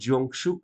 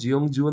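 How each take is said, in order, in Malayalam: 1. അവസാന അക്ഷരം sh ശബ്ദത്തിൽ തുടങ്ങുന്നു. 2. അവസാന അക്ഷരം j ശബ്ദത്തിൽ തുടങ്ങുന്നു. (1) "വായിക്കുമ്പോൾ ജിയോങ്ഷു എന്ന് വായിക്കും" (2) "എഴുതുമ്പോൾ ജിയോങ്ജു എന്ന് എഴുതും"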